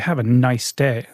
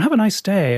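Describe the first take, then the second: First: It is said in a cynical, sarcastic tone. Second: It is said in a light, friendly tone. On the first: The wish is not meant sincerely. "It's a bit cynical" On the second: The wish is sincere. "it's nice and light"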